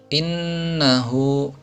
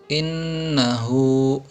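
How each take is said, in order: The two takes are said the same way.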